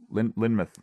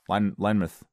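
First: "Lynmouth" as LIN-muth; short i, weak ending. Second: "Lynmouth" as LINE-muth; long i, weak ending. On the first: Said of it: "see Lynmouth". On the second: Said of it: "This is Linemouth". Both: Shown as a demonstration.

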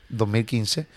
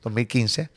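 No difference in how they are said.

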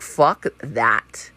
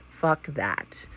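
First: Said in the usual way. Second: Whisper. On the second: Acted. Repeats the rejection as a whisper.

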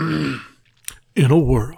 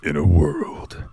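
First: Breathy trailer-voice whisper; movie trailer whisper. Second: Low, slow trailer announcer voice; movie trailer narrator. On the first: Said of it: "narrator voice". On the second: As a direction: open it like an epic movie trailer. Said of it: "Let me get my narrator voice on". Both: Pretend.

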